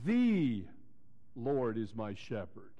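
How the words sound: The stress falls on the word "the". He is the one and only true God. "let me emphasize it that way, like this. ... The"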